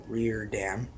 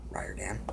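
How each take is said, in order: First: "Riordan" said as "ree-OR-dan" with a rise; "Riordan" tried as "ree-OR-dan"; first pronunciation. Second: "Riordan" whispered as "RYE-or-dan"; a private whispered "RYE-or-dan"; whispered correction. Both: Shown as a demonstration.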